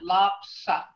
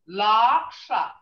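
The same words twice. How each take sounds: First: The word is short and blunt. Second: The word is held a little longer. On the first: It means hoof. "And it's short. It's got a short sound. It's blunt" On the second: It means liar. "see how it's held a little longer? Loxa. That's a liar"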